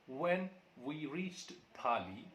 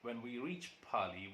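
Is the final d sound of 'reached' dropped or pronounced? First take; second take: pronounced; dropped. First: The final sound of 'reached' is pronounced. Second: The final sound of 'reached' is dropped.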